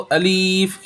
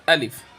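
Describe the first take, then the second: First: A vowel in the word is drawn out long. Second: The vowels in the word are kept short. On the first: The speaker calls it wrong. "अलीफ खींचना" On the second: The speaker calls it right. "सही है अलिफ"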